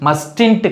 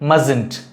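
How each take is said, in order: First: The first t sound is pronounced. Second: The first t sound is silent. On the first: The speaker calls it wrong. "mustn't கிடையாது" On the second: The speaker calls it right. "இந்த டி வந்து silent"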